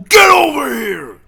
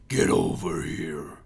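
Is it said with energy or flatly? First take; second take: energy; flatly. First: It is said with forceful energy. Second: It is said flatly, without force.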